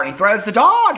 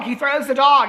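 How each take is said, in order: First: Said in the usual way. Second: Can you believe it, he throws the dog; incredulous exclaim. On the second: Shown as a demonstration. Recapping the movie to viewers, higher disbelieving repeat.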